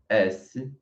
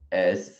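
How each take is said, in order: First: The letter is named the Portuguese way. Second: The letter is named the French way. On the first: "em português" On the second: "en français"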